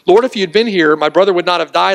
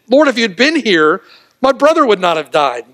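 First: It is said in a trusting tone. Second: It is said in a scolding, despairing tone.

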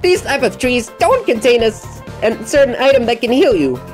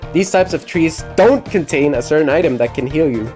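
First: It is read in a put-on Lancer voice. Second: It is read in the speaker's normal voice.

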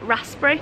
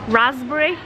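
First: The middle consonant is an s sound. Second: The middle consonant is a z sound. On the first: The speaker calls it right. "I think I'm right because that's how it's spelled" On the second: The speaker calls it wrong. "you're changing the S to a Z"

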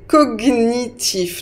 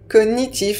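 First: The g and n are pronounced as separate sounds. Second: The gn is pronounced as one 'ny' sound. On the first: This is the official dictionary pronunciation. "la prononciation officielle, c'est cognitif" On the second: This is how most people actually say it. "beaucoup plus de personnes qui prononcent cognitif"

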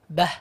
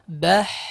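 First: The final breathy sound is cut short. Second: The final breathy sound flows out fully. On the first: The speaker calls it wrong. "Jangan sampai cuma bah, ... kurang sempurna" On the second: The speaker calls it right.

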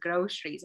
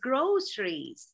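First: The middle consonant sounds like sh. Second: The middle consonant sounds like s. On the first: The speaker calls it wrong. "I say it as like an S-H" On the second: The speaker calls it right. "no, it's groceries"

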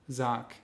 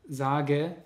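First: The final e sound is dropped. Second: The final e sound is pronounced.

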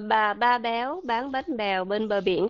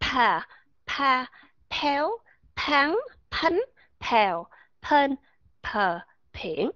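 First: Each word starts with a plain, unaspirated b sound. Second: Each word starts with a puff of air, like p. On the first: "mình dùng cái âm bờ bên Việt Nam thôi" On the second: "thổi hơi ra trong từng âm"

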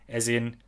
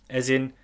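No difference in how they are said.

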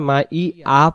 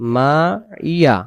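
First: The second syllable starts with a glottal stop. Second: The second syllable starts with a y sound. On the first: The speaker calls it wrong. "তাহলে এখানে হামজা জবর আসতেছে" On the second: The speaker calls it right. "মাইয়া যেন উচ্চারণটা হয়, কারণ আইনজের ইয়া জবর ইয়া"

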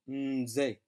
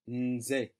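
First: The N is blended smoothly into the rest. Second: The N is blended smoothly into the rest.

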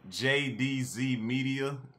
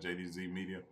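First: It is said slowly. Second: It is said fast.

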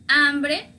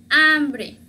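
No difference in how they are said.

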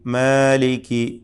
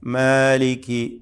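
Both takes have the same delivery.

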